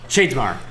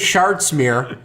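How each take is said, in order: First: The name ends with a 'mar' sound. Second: The name ends with a 'mere' sound. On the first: The speaker calls it right. "That's what you're supposed to say" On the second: The speaker calls it wrong. "when I say Shardsmere"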